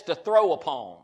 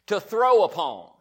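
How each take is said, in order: First: Said in the usual way. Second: To throw upon said louder, leaning on throw; louder emphatic repeat. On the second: Shown as a demonstration. Preacher stressing throw to the congregation. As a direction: hammer home throw for the congregation. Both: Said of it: "repeats louder".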